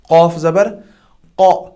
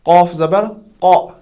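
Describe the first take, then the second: No difference in how they are said.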